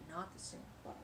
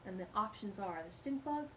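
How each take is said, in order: First: "not the stink bug" whispered, much softer; a secret whisper aside to the kids. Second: Said in the usual way. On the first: Shown as a demonstration. Telling the children "not the stink bug", whispered.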